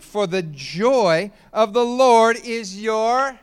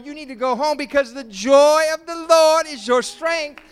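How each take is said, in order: First: Joy of the Lord slowed right down, left hanging; drawn-out build. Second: Loud, high, hammering each don't; full-force preaching. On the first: Preacher lets the congregation finish the verse, slow. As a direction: stretch it out and stop short before the last word. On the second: Pastor exhorts the congregation not to be sad, full-force preaching. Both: Shown as a demonstration.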